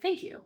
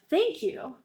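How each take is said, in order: First: It sounds forced and reluctant. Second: It sounds warm and sincere.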